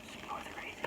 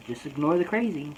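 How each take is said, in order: First: Barely audible whisper; whispered self-talk. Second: Said in the usual way. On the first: Retold or imitated. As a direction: whisper it to yourself under your breath. Repeats it under the breath.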